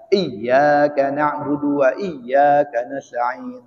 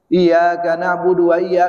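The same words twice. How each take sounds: First: "Iyyaka" with a held double y, iy-yaa-ka; with tasdid. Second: "Iyyaka" with a light single y, like i-ya-ka; without tasdid. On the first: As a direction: recite very slowly, leaning on the doubled y in "Iyyaka". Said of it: "dengan tasdid". ("Iyyaka" dibaca bertasdid, dilantunkan pelan) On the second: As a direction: recite slowly, not doubling the y in "Iyyaka". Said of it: "nggak pakai tasdid". ("Iyyaka" dibaca tanpa tasdid, y tunggal) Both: Shown as a demonstration.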